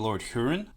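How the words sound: Huron gets a British-style pronunciation. This is how the band itself might say the name.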